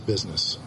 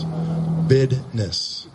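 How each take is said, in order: First: The middle consonant is a z sound. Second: The middle consonant is a d sound. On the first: The speaker calls it wrong. "You can't say business" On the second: The speaker calls it right. "You have to say it that way"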